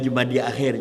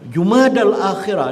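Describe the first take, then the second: First: It is said as Jumadi Akhir, ending in Akhir. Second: It is said as Jumadal Akhirah, ending in Akhirah. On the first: The speaker calls it wrong. "bukan itu yang masa Nabi sebut dulu" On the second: The speaker calls it right. "sebut Jumadal Akhirah yang betul"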